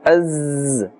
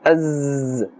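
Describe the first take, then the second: Both takes have the same delivery.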